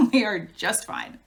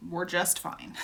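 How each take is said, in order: First: "We are just fine" with "are" leaning in firm; stress on are. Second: Said in the usual way. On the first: Shown as a demonstration. Reassuring viewers after years, stressing "are". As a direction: insist on "are", spaced out.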